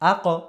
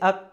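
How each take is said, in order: First: The final q is released with an echoing bounce. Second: The final q is closed flatly without a bounce. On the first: The speaker calls it right. "বলতে হবে কি আ ক" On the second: The speaker calls it wrong. "এরকম বলতেছি আক, এরকম বলতেছি, এরকম হবে না কিন্তু"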